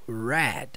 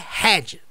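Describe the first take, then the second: First: The word begins with an English R sound. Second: The word begins with an H-like breathy sound. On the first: The speaker calls it right. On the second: The speaker calls it wrong. "Não é head, tá? Se você fala head, corta isso daí da sua pronúncia"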